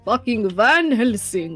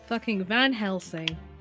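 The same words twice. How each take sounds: First: It is said in a put-on vampire voice. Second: It is said in an ordinary speaking voice.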